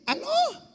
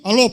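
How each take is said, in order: First: The voice is high and childlike. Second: The voice is deep and thick. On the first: The child is still small. "Há pouco tempo atrás você ligava e dizia assim" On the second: The child has grown up. "Quando cresce, engrossa logo o cangote"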